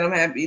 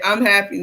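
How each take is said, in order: First: A hint of wound-up, lifeless voice; flat unhappy Rico. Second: Lightly mocked lifeless Rico; a touch of a wound-up doll voice; imitating Rico. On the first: Mimicking Rico's joyless reply to the camera, lightly. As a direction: say it like a toy someone pressed play on. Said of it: "That's exactly how he sounds". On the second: Retelling Rico's reply on the show, a hint of flat mock. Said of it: "The way he said it".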